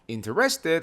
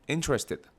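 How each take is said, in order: First: The stress is not on the first syllable. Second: The stress is on the first syllable. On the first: The speaker calls it wrong. "아니에요" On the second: The speaker calls it right. "딱 강세를 앞에다가 주시고"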